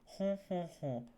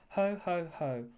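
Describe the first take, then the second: First: The laugh is strongly nasal, air through the nose. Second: The laugh is oral, without nasal resonance. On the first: "stereotypical French person laughter" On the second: "stereotypical Santa Claus laughter"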